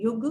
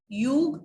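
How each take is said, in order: First: "युग" with short "yu"; quick "yug" for "युग"; correct pronunciation. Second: "युग" slow, with long "yoo"; drawn-out "yoog" for "युग"; wrong pronunciation. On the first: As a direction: keep the U of "युग" brief. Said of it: "युग नहीं". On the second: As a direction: stretch the U of "युग". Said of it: "नहीं". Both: Shown as a demonstration.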